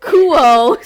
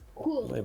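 First: The final L is replaced by an oh sound. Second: The final L sound is clearly pronounced. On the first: This imitates how a friend says the word. "Instead of saying L, she just goes, oh" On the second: This is the ordinary American way of saying it. "Be an American like me"

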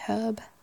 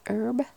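First: The word starts with an h sound. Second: The word starts without an h sound. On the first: "We'd say herb" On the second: "in the US you don't pronounce the H"

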